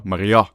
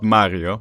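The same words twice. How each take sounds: First: "Maria" with the last vowel stressed; "Maria" landing on its ending, not its start; stress on final vowel. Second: Said in the usual way. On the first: Shown as a demonstration. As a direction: push the emphasis to the final A of "Maria". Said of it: "Not Mario. Maria". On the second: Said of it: "Not Mario".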